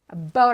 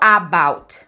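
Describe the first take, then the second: First: The first vowel is a weak, reduced schwa. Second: The first vowel is a full, clear vowel. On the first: The speaker calls it right. "O a é um Shuar" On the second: The speaker calls it wrong. "Eu não falo about"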